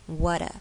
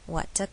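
First: The middle t sounds like a quick d. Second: The middle t is a clear, crisp t. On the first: "如果是美式发音会变成" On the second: "这边没有"

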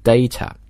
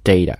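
First: The t is pronounced clearly and crisply. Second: The t is a quick flapped sound. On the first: "英式英语呢这个 t 会发得非常的清楚" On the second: "美式英语这个T…发成一个弹舌的一个 flap T"

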